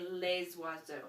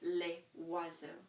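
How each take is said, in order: First: The S is linked as a Z sound. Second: There is no Z sound linking the words. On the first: The speaker calls it wrong. "So I would not say les oiseaux" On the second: The speaker calls it right. "you're not going to do that liaison on this particular one"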